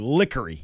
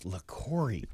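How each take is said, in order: First: The name begins with a 'lick' sound. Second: The name begins with a 'la' sound. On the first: The speaker calls it wrong. "but he was saying Lickery" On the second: The speaker calls it right. "hey, it's LaCoury"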